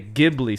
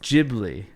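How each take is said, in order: First: It is said with an American pronunciation. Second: It is said with a Japanese pronunciation. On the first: The speaker calls it wrong. "you Americans say Ghibli Studios" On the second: The speaker calls it right. "It's Ghibli"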